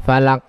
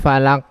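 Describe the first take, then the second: Both takes have the same delivery.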